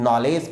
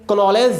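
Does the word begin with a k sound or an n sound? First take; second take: n sound; k sound. First: The word starts with an n sound. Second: The word starts with a k sound. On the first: The speaker calls it right. "आपको नॉलेज पढ़ना है" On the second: The speaker calls it wrong. "कनॉलेज नहीं पढ़ना है"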